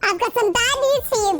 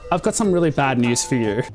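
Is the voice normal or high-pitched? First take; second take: high-pitched; normal. First: It is said in a high-pitched voice. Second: It is said in a normal voice.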